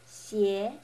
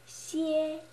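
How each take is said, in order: First: It is said with the second tone. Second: It is said with the first tone. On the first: "The second" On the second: "you can make the following pronunciations"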